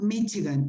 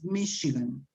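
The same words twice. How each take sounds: First: The middle consonant is a ch sound. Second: The middle consonant is an sh sound. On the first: The speaker calls it wrong. "this city in English is not Michigan" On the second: The speaker calls it right. "it's Michigan. Okay. Exception"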